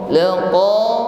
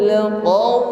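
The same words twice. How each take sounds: Both takes have the same delivery.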